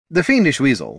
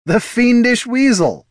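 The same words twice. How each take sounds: First: Said in the usual way. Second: High, loud, drawn-out cry of amusement; amused high-pitched cry; laughed exclamation. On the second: Acted. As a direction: crow it high and slow, as if laughing. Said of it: "laughed Heraldon".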